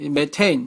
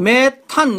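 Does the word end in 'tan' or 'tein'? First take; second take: tein; tan. First: The word ends with the syllable 'tein'. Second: The word ends with the syllable 'tan'. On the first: This follows the American pronunciation of the term. "미국식 발음으로" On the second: This is the older local reading of the term. "우리는 메탄, 이렇게 읽는데"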